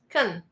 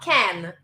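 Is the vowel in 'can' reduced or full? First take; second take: reduced; full. First: The vowel is reduced to a short weak sound. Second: The vowel is full, as in a strong form. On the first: The speaker calls it right. "the weak sound is kun" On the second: The speaker calls it wrong. "can is the strong sound"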